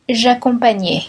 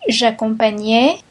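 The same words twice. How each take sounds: First: « j'accompagnais » dit avec la voix qui descend à la fin; intonation descendante. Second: « J'accompagnais » dit avec la voix qui monte à la fin; intonation montante. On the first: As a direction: lire « j'accompagnais » comme fin d'énumération, ton descendant. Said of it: "conjugation drill, closing item". (« j'accompagnais » sur un ton descendant, conclusif) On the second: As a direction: lire « J'accompagnais » comme un début d'énumération, ton montant. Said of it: "conjugation drill, list intonation". (« J'accompagnais » sur un ton montant) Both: Shown as a demonstration.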